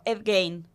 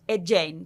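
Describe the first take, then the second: First: The surname is said as it is spelled. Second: The surname is said like the English 'Jane'. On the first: The speaker calls it wrong. "Yo lo he pronunciado mal toda la vida. Siempre he llamado" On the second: The speaker calls it right. "¿Y cómo es?"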